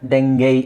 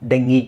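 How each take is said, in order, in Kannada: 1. ಈ ಪದ 'eye' ಶಬ್ದದಲ್ಲಿ ಕೊನೆಗೊಳ್ಳುತ್ತದೆ. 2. ಈ ಪದ 'ee' ಶಬ್ದದಲ್ಲಿ ಕೊನೆಗೊಳ್ಳುತ್ತದೆ. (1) "ಅಮೆರಿಕನ್ಸ್ ಇದನ್ನು ಡೆಂಗೈ ಅಂತ ಹೇಳ್ತಾರೆ" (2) "ಬ್ರಿಟಿಷರು ಇದನ್ನು ಡೆಂಗಿ ಅಂತ ಹೇಳ್ತಾರೆ"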